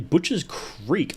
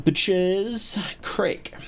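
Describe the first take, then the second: First: Said in the usual way. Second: Drawn-out, slow French pronunciation; mock French accent. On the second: Streamer repeating the game's title as the French call it, mock French accent. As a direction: say it slowly with a put-on French accent. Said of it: "as the French call it".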